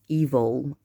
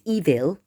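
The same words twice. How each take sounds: First: The second syllable has an 'o'-like vowel. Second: The second syllable has an 'i'-like vowel. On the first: "like an O" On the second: "we don't say it's evil"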